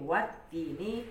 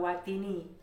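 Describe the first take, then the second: First: The t sound is held and doubled. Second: The t sound is short and single. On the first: The speaker calls it right. "Itu ada wat" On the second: The speaker calls it wrong. "jangan watini"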